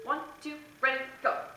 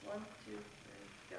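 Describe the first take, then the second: First: The count-off is said loudly and strongly. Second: The count-off is said quietly and weakly. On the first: The group should come in strong. The speaker calls it right. "A lot of it can come in the in the tone of your voice" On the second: The group will come in weak. The speaker calls it wrong. "They're not going to start forte"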